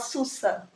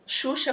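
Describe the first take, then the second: First: The word is said with s sounds. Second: The word is said with sh sounds.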